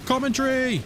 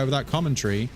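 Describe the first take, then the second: First: "commentary" stretched out high; showy, lifted "commentary"; playful singsong. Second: Said in the usual way. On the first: Pretend. Says it showily, then repeats plainly.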